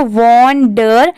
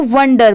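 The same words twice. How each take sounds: First: वंडर said as two pieces, "won-der", with an open o; wrong pronunciation. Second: वंडर as "WUN-der", short u like "sun"; correct pronunciation. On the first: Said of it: "नहीं पढ़ते". (वंडर का गलत उच्चारण, "वॉन-डर") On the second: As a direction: say वंडर as one word with a short "uh". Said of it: "इसको वंडर पढ़ेंगे". (वंडर का सही उच्चारण, छोटे अ से "वन्-डर") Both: Shown as a demonstration.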